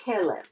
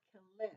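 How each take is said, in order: First: "Kelev" said as KE-lev, stress on the first syllable; the correct "Kelev" with the accent at the beginning; "Kelev" said right, weight on KE. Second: "Kelev" said as ke-LEV, stress wrongly on the last syllable; the incorrect "Kelev" with the accent moved to the end; "Kelev" mispronounced on purpose, second syllable stressed. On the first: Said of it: "you always have the accent at the beginning of the word". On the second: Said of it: "it's not Kelev because when you have the double segol". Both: Shown as a demonstration.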